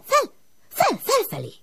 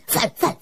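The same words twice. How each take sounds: First: Fel fel shooting very high; soaring call upward. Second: Higher, unvoiced puff of fel fel; breathy call upward. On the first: The smoke calling Ilus up the chimney, rising very high. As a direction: let fel fel rise like smoke. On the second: The smoke calling Ilus upward, breathy. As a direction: blow out fel fel like a gust. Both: A narrator's reading.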